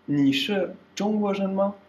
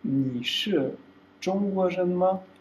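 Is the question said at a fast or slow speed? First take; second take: fast; slow. First: The question is said quickly at natural speed. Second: The question is said slowly and carefully.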